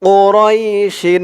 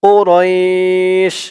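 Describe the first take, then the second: First: The word ends with a full 'shin' syllable. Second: The word ends on a bare 'sh' sound. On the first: The reading continues past the word. "শিন দুইজের শিন" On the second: The reader stops at this word. "এখানে যদি আমরা থামি তাহলে উচ্চারণ হবে"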